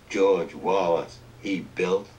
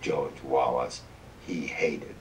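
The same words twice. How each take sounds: First: Slow, loud proclamation of the name; grand monument inscription. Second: Lower, slow, somber reading; grim epitaph. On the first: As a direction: read it like carved marble. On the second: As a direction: let it fall like a cheap grave marker. Scrawny pine epitaph contrasted. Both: Retold or imitated.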